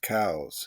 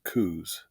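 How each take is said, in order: First: The name sounds like the word 'cows'. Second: The name does not sound like 'cows'. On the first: "To be technically correct, it is pronounced cows" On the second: "Most people pronounce it Coues"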